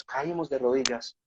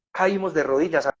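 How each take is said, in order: First: Softer and slower, a moved murmur; hushed, moved repeat. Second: Said in the usual way. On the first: Retold or imitated. Recalling kneeling by Samuel's bed, hushed and moved. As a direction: let it sink into a hushed echo. Falling to knees at Samuel's bedside.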